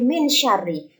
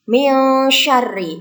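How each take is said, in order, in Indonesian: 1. Bunyi n dibaca penuh dan jelas. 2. Bunyi n melebur menjadi bunyi sengau. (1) "tidak boleh" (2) "harus dibaca samar"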